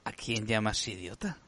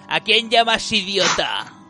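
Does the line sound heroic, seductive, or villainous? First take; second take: seductive; villainous. First: It is said in a seductive, flirtatious voice. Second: It is said in a villainous, contemptuous voice. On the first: The speaker is trying to seduce. "Ahora seduce" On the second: The speaker is the bad guy. "Y ahora viene el malo, dice"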